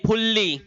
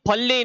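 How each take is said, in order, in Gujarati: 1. પહેલો સ્વર 'u' અવાજ છે. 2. પહેલો સ્વર 'a' અવાજ છે. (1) "નહીં ફુલ્લી" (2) "ફલ્લી નહીં"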